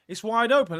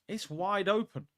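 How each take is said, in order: First: Raised, louder declaration; excited. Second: Said in the usual way. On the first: Real, not acted. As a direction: call it out loud. Excited claim while watching.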